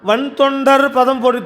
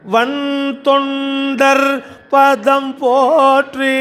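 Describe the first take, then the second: First: The words are said short, without lengthening. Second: The words 'van thondar' are drawn out. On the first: The speaker calls it wrong. "இல்லைன்னா வன் தொண்டர் பதம் போற்றி தாளம் மாறி போயிடும்" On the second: The speaker calls it right. "அந்த வன் தொண்டர் அப்படி இழுத்தா தான் தாளம் வரும்"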